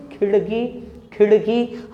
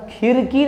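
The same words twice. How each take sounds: First: खिड़की with half-strength ड; खिड़की, retroflex ड़ rather than र; retroflex flap ड़. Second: खिड़की wrongly said as "khirki"; light tapped र replacing ड़ in खिड़की; mispronounced with र. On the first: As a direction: flick the tongue on ड़ in खिड़की. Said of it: "डॉ को आधा कर रखा है". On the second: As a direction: say खिड़की with no retroflex flick. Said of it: "नहीं". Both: Shown as a demonstration.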